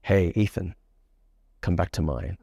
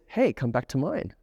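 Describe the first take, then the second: First: Low, unhurried pickup line with sexual energy; seductive. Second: Said in the usual way. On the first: Shown as a demonstration. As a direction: say it low and suggestive. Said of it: "You feel that sexual energy". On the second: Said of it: "But imagine he did this".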